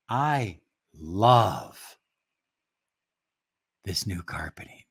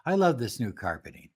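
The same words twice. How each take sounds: First: Love made the peak of the sentence; stress on love. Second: Love said flat and quick, no lift; underemphasized love. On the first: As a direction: lean on love, then let the rest fall away. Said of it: "when you emphasize the word". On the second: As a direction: rush past love without stressing it. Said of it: "underemphasize it". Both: Shown as a demonstration.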